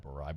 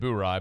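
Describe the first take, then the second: First: The first syllable sounds like 'boar', with an r. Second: The first syllable sounds like 'boo', without an r. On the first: "like like you're saying bourbon" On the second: "I've always said Boo Rye"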